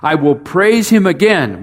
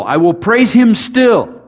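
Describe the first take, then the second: First: Said in the usual way. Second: "still" leaned on, line pitched higher; "still" stressed, lifted high and held. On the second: Shown as a demonstration. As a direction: land on "still" to close the verse. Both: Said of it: "you can use the word still".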